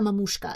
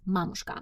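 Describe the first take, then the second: First: It is pronounced the English way. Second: It is pronounced the Russian way. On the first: The speaker calls it wrong. "not Mamushka" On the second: The speaker calls it right. "but it's Mamushka"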